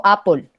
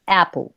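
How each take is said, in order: First: "apple" with a pure Spanish A; plain A vowel. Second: "apple" with A sliding subtly into E; blended A-E vowel. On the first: Teacher shows students what she doesn't say, plain A. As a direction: say "apple" as "AH-pol", no E in the first vowel. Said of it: "yo no digo apple". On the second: Teacher corrects students with her own version, blended A-E. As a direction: say "apple" with a short A and E fused in the first vowel. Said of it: "yo digo apple". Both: Shown as a demonstration.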